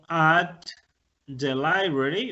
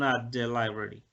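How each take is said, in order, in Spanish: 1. Cada palabra se dice por separado y completa. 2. Los dos sonidos se funden en un solo sonido unido. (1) "Yo digo at the library, lo puedo decir" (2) "lo normal es que ustedes escuchen at the library"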